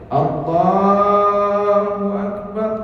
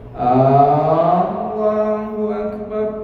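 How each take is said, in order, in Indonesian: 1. Suku kata la dibaca panjang. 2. Vokal A pembuka dibaca panjang. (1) "kalau la-nya panjang boleh" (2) "A-nya yang panjang tak boleh"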